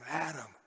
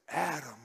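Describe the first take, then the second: Both takes have the same delivery.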